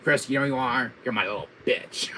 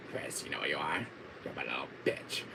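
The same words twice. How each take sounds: First: Lightly voiced villain taunt at full voice; mock villain put-down; Wesker. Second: Low, soft villain taunt; quiet, deep-pitched mock menace; Wesker. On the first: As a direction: belittle as an arch-villain. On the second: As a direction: imitate a villain's hushed put-down. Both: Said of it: "D C Douglas saying that line".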